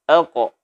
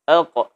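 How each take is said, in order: Both takes have the same delivery.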